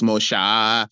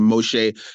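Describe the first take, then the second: First: The final vowel sounds like a kamatz vowel. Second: The final vowel is a plain 'e' sound. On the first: This is the older Yemenite community pronunciation. "the Segol comes out like a like a, a, a, a, a Hamatz" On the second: This is the usual pronunciation. "instead of Moshe"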